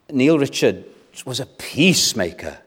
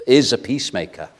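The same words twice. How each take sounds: First: Said in the usual way. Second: IS hit first and firmly, the rest falling away; stress on IS. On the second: Real, not acted. Preacher correcting himself on a living peacemaker, stress on IS. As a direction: correct it with a firm IS.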